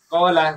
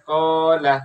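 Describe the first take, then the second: First: The vowel is said short, not drawn out. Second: The vowel is drawn out for two beats. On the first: There is no lengthening mark on the letter. "Kalau kalau tidak ada tanda panjangnya atau matnya" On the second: There is a lengthening mark on the letter. "Kalau ada tanda panjangnya"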